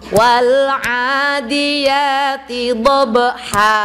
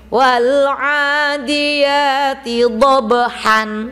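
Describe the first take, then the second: First: The last word ends on a long vowel. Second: The last word ends with an n sound.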